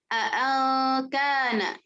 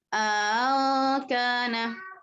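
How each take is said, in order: First: Both glottal stops are pronounced fully and clearly. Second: Second glottal stop is softened, long vowel inserted. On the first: "membaca dengan tahqiq dua hamzahnya" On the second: "tashil hamzah kedua tapi ada idghal di sini"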